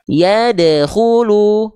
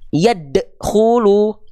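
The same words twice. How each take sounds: First: The 'd' is released with a light bounce. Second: The 'd' is cut off with an abrupt stop. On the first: The speaker calls it right. "pantulkan dengan ringan" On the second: The speaker calls it wrong.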